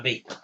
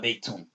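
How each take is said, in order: First: The word ends on the t with no ending. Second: The word ends with an added 'un' sound. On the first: "you don't have to pronounce the vowel on the end. You drop that" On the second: "You don't have to say"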